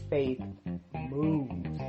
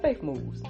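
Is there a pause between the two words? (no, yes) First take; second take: yes; no. First: A pause separates the two words. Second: The two words run together without a pause. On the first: "when you put that pause between faith moves" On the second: "at first I was just like"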